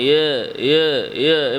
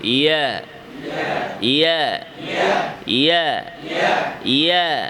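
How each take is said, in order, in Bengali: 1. স্বরধ্বনিটি মুখ প্রায় বন্ধ রেখে বলা হয়। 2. স্বরধ্বনিটি মুখ খোলা রেখে বলা হয়। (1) "এভাবে না" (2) "মুখ বন্ধ না"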